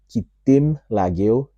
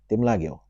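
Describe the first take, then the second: First: The phrase begins with the full syllable 'ki'. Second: The phrase begins directly with 'tim', no 'ki'. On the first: The speaker calls it wrong. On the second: The speaker calls it right.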